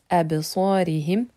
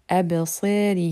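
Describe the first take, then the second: First: The s sound is heavy and emphatic. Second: The s sound is light and thin. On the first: "au lieu de dire" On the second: "il est possible à certains moments de l'amincir"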